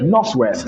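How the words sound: The 'th' in north sounds like an 's'. "He also said northwest"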